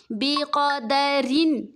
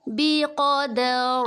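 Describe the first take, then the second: First: بقدرن slow with a light thin ر. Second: بقدر stopped with a full heavy ر; heavy ra on pause. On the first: Teacher demonstrating the thin ra in بقدرن. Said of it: "باریک پڑھیں گے". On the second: Teacher demonstrating the heavy ra when stopping on بقدر. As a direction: round out the final ر of بقدر thick and heavy. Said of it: "اگر وقف کرے تو پر پڑھیں گے". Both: Shown as a demonstration.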